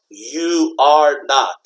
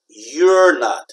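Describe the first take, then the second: First: It is said as three separate syllables. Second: It is said as two syllables, contracted. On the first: "three words, three syllables" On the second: "When we contract, we want to have two syllables"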